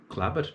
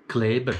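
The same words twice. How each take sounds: First: Kleber with a broad Thurgau a, Klaber; Thurgau accent. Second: Said in the usual way. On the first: Shown as a demonstration. Comedian showing the Thurgau pronunciation of Kleber. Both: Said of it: "was sagt man da im Thurgau".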